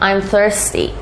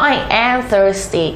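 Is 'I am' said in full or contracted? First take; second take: contracted; full. First: I am is contracted into one syllable. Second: I am is said as two full words. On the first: "พูดเป็น I'm ไปเลยก็ได้นะคะ" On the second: "จำเป็นต้องพูด I am เลยไหม"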